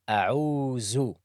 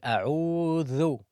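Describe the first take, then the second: First: The middle consonant sounds like z. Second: The middle consonant sounds like voiced th. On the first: The speaker calls it wrong. "they say أعوذ because they keep the tongue inside" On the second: The speaker calls it right. "instead of saying أعوذ"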